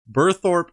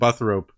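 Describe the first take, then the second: First: The name ends with a 'thorpe' sound. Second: The name ends with a 'thrope' sound. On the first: The speaker calls it right. "I've been pronouncing it wrong" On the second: The speaker calls it wrong. "I think last time I said like Buthrope"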